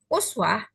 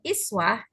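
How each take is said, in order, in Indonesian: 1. Kata ini diawali dengan vokal 'u'. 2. Kata ini diawali dengan vokal 'i'. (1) "kata uswah jika dibaca dhammah" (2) "kalau dibaca kasroh iswah"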